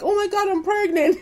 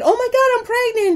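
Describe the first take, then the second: First: It is said with dismay. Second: It is said with excitement.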